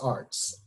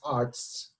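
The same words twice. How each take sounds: First: The name is pronounced with English sounds. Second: The name is pronounced with German sounds. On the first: The speaker calls it right. "but it's Arzt" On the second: The speaker calls it wrong. "the German pronunciation, just Arzt ... now I said it wrong"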